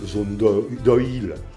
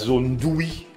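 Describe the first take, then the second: First: The last word sounds like two syllables, oh-eel. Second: The last word sounds like a single syllable, wee. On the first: The speaker calls it wrong. "que tout le monde continue à dire" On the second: The speaker calls it right. "Ça fait longtemps qu'Oïl se prononce oui"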